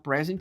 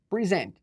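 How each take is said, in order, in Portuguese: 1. A sílaba tônica é a primeira. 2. A sílaba tônica é a segunda. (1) "é o substantivo" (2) "Uh, verbo"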